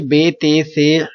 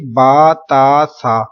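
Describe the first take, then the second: First: The letter names end in an 'e' vowel. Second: The letter names end in an 'a' vowel. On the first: The speaker calls it wrong. "Urdu तलफ़ुज़ से परहेज करें, यानी कि बे ते से हे खे तोए जोए वगैरह हरगिज ना पढ़ें" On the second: The speaker calls it right. "बल्कि क्या पढ़ेंगे, बा ता सा"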